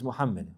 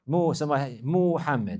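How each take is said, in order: First: The vowels are kept at normal length. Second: A vowel is stretched out with added length. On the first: The speaker calls it right. "My name is Muhammad" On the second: The speaker calls it wrong. "like this. So there's no med here on the meme. So to put a med there is not proper"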